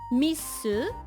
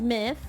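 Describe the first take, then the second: First: It is said with Japanese sounds, ending in 'su'. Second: It is said with English sounds, ending in 'th'.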